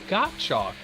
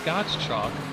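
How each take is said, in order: First: The S sound is left silent in the name. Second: The S sound is pronounced in the name. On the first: The speaker calls it right. "the S is actually silent" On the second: The speaker calls it wrong. "for years I thought it was Gottschalk"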